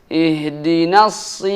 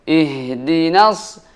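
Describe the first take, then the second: No difference in how they are said.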